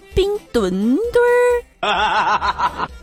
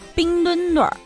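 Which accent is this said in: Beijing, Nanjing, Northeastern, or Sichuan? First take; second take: Sichuan; Beijing. First: It is said in a Sichuan accent. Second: It is said in a Beijing accent. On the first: Pandas mostly come from Sichuan. "所以要用四川话念嘛，念冰墩墩儿" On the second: The Winter Olympics are held in Beijing. "北京人不服了"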